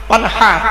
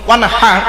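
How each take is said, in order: Both takes have the same delivery.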